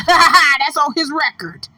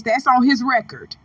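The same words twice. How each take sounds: First: Slow, amused insistence; laughing repeat. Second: Said in the usual way. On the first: Real, not acted. Commentator citing the rapper's record, slow and laughing. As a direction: say it drawn out, coming off a laugh.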